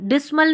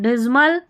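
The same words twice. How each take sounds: First: The middle consonant is a hissing s sound. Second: The middle consonant is a buzzing z sound. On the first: The speaker calls it wrong. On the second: The speaker calls it right.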